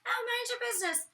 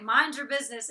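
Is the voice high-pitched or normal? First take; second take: high-pitched; normal. First: It is said in a high-pitched voice. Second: It is said in her normal voice.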